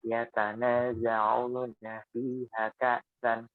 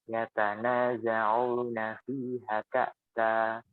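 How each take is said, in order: Both takes have the same delivery.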